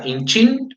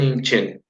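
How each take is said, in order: First: "inchin" ending in -chin like "chin"; "inchin" with a clear i; inchin, central i. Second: "inchen" ending in -chen, the Williche way; "inchen" with an open e sound. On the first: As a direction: say "inchin" with a close i in the last syllable. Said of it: "En vez de decir". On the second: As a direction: say "inchen" with an e in the last syllable. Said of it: "dicen inchen". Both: Shown as a demonstration.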